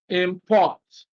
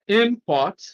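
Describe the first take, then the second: First: The stress is on the second syllable. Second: The stress is on the first syllable. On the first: It is used as a verb. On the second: It is used as a noun.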